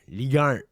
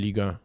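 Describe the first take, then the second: First: It is said in an exaggerated Canadian French accent. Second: It is said in a plain, standard French accent.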